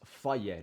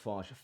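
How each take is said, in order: First: The name ends in a vowel sound. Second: The name ends in a 'j' sound. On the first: The speaker calls it right. "It's Faye" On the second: The speaker calls it wrong.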